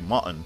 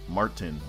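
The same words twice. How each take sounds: First: The R after the vowel is silent. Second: The R after the vowel is pronounced. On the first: This is how British speakers say it. The speaker calls it wrong. "But they say Martin" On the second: This is how American speakers say it. The speaker calls it right. "There's an R there. You're supposed to say Martin"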